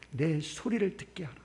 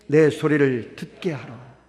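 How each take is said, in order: First: Said in the usual way. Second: Slow scripture reading. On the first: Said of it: "아멘". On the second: Shown as a demonstration. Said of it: "시작".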